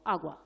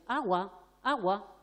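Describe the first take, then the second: First: Just the word "Agua", firm and clear; "Agua" as a single calm label at the child's level; simple label. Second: Put-on adult trailing after the child repeating "Agua, agua"; nagging repetition. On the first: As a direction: say "Agua" alone, louder, one clear falling word. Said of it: "me pongo a su altura y le digo". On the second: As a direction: keep pushing "Agua, agua" at him. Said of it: "no quiere decir que yo ande detrás de él". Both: Shown as a demonstration.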